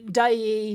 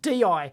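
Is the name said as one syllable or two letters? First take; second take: one syllable; two letters. First: The name is said as one syllable. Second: The name is spelled out as two letters. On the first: "I've heard it pronounced uh, Day" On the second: "they want us to pronounce it D I"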